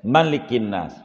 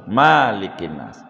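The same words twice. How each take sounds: First: The vowel after the m is short. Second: The vowel after the m is long. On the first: The speaker calls it right. "sepakat wajib pendek" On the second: The speaker calls it wrong. "nggak boleh"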